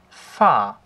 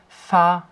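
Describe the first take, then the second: First: The pitch falls sharply downward. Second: The pitch stays high and level.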